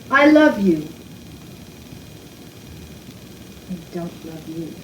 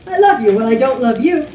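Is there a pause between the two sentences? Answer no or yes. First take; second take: yes; no. First: A clear pause separates the two sentences. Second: The two sentences run on without a pause. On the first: "there's a pause in between" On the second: "people that don't have the pause in there"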